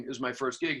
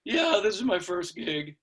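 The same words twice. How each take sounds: First: Said in the usual way. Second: Put-on high, slow boyish admission; sheepish kid. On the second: New drummer admitting to older players, sheepish boy voice. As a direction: own up in a little kid's voice.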